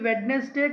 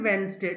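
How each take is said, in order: First: A d sound is pronounced before the n. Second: No d sound is pronounced before the n. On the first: The speaker calls it wrong. "ఇది వెడ్నెస్డే కాదండి" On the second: The speaker calls it right. "డి is a silent letter here"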